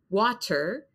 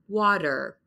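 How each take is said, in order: First: The middle consonant is a clear T. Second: The middle consonant sounds like a D. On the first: "So I don't say water" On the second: "That's kind of a D sound in the American pronunciation"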